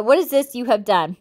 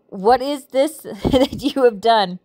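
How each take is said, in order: First: Said in the usual way. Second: Slow scripture line broken by a real laugh; amused, giggle breaking into the verse; laughing while reading. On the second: Real, not acted. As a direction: read it while trying not to laugh. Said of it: "I'm sorry I'm laughing".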